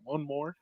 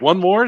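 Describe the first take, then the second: First: It is said flatly, without enthusiasm. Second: It is said eagerly, with excitement.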